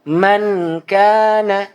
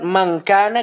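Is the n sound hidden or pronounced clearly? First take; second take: clear; hidden. First: The n is pronounced clearly before k. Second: The n is softened and hidden before k. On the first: The speaker calls it wrong. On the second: The speaker calls it right.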